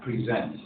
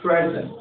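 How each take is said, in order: First: "Present" as a verb, pri-ZENT; second-syllable stress. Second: "Present" as a noun, PREZ-ent; higher pitch, stressing the first syllable of "Present". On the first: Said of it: "Good, the second syllable". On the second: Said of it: "related to the noun". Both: Shown as a demonstration.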